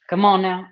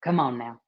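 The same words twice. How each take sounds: First: "Come on now" pushed louder, leaning on "on"; louder insistence. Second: Said in the usual way. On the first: Shown as a demonstration. Coaxing her live viewers, stressing "on" louder. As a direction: press harder on "on", coaxing. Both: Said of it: "repeated come on now".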